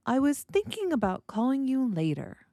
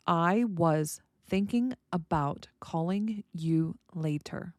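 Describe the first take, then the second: First: Words blended, "thinking" lifted high with a musical fall to "later"; natural intonation, blended. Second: Slow, separated words with little tune. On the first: Teacher showing learners how music shows interest, blended and lilting. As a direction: run it together and swing up on "thinking". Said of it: "The intonation shows the intent". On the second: Teacher giving learners an example sentence, word by word. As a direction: read it out one word at a time, unblended. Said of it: "The blending shows it's natural". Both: Shown as a demonstration.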